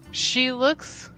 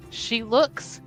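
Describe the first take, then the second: No difference in how they are said.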